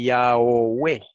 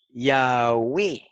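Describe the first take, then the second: First: "Yahweh" dicho ya-o-we, mal, separando la o; pronunciación incorrecta. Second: "Yahweh" dicho ya-we, con diptongo; pronunciación correcta. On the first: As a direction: pronuncia "Yahweh" como ya-o-we, despacio. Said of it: "No se dice". (forma equivocada "Yahweh", con o marcada) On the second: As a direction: pronuncia "Yahweh" ya-we, sin separar. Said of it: "se pronuncia U". (forma correcta "Yahweh" con u) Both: Shown as a demonstration.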